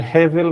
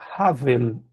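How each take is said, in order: First: The first vowel is an 'e' sound. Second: The first vowel is an 'a' sound. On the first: This is the ordinary form of the word. "em vez de Hevel" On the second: This is the form used at a pause in the verse. "na pausa, vai ficar Havel"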